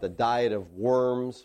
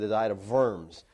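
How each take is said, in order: First: The word 'worms' begins with a W sound. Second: The word 'worms' begins with a V sound. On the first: This is how English readers say it. "you read about the diet of worms" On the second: This is how a German speaker says it. "the German would say the diet of worms. Okay, it's a V sound"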